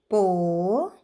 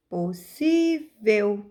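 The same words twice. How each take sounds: First: Syllable by syllable. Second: "Possível" slowed, middle syllable "sí" held and stressed. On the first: Teacher counting out syllables for pupils, "Po-si-vel" said piece by piece. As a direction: break "Po-si-vel" apart, pausing after each syllable. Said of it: "possível tem três sílabas". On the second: Teacher showing pupils the strong syllable, "Possível" with stressed SÍ. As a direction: lean long on the "sí" in "Possível". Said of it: "colocamos maior força na sílaba si". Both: Shown as a demonstration.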